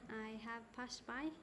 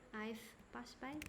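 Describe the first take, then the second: First: "I have" is said as two full words. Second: "I have" is shortened to one syllable. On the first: The speaker calls it wrong. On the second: The speaker calls it right.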